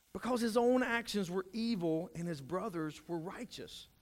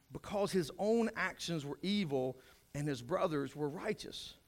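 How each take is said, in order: The two takes are said the same way.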